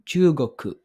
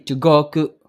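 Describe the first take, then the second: First: Chugoku said with the long u sounds in the wrong places; a mistaken take of Chugoku; wrong vowel length. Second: Chugoku said again with the long u sounds in the right places; the corrected take of Chugoku; corrected vowel length. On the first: Teacher slipping and then correcting herself. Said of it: "Hindi, Chugoku. Baliktad yun". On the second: Teacher fixing her own mistake. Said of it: "Baliktad yun". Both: Shown as a demonstration.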